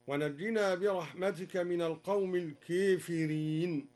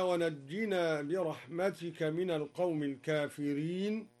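First: "الكافرين" with its long aa tilted to ee, "keefireen"; imala on الكافرين. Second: Said in the usual way. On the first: Shown as a demonstration. Teacher showing al-Duri's reading, "الكافرين" said with imala as keefireen. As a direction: recite "الكافرين" with a fronted first vowel. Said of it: "أمال الدوري لفظ الكافرين هكذا". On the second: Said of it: "أمال الدوري لفظ الكافرين".

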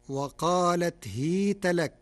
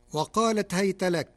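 First: هيت with kasra on ha, hita; Warsh reading. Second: Said in the usual way. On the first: Shown as a demonstration. Teacher demonstrates Warsh hita reading. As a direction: say هيت as hit not hayt. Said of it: "بكسر الهاء". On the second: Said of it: "كلمة هيت بكسر الهاء".

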